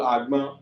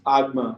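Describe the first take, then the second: First: It has the tone pattern of the word coconut. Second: It has the tone pattern of the word basket. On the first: It means coconut. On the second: It means basket. "you are talking about basket"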